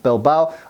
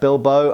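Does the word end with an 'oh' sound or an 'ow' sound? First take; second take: ow; oh. First: The word ends with an 'ow' sound. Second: The word ends with an 'oh' sound. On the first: This is how other Spanish speakers say it. "the other Spanish say more Bilbao" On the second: This is how Basque speakers say it. "the Basques say more like Bilbo"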